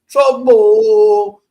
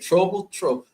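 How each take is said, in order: First: It is said in a put-on dollar bill voice. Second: It is said in his normal voice.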